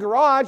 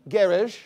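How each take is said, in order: First: It is said with an American pronunciation. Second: It is said with a British pronunciation. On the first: "instead of being garage" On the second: "You could go to Britain, ... it'd be garage"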